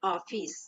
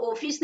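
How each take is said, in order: First: ऑफिस as "aw-fis", lower and softer; ऑफिस with vowel between aa and o; correct open vowel. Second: ऑफिस as "oh-fis"; ऑफिस read with o as spelt; wrong closed o. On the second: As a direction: say ऑफिस with a rounded long o. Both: Shown as a demonstration. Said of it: "ओ है तो ऑफिस नहीं".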